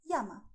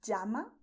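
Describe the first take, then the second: First: "llama" said "yama". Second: "Llama" said "jama", with English j; ll as in jeans. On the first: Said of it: "You have another possibility". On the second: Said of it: "Both of them are correct". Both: Shown as a demonstration.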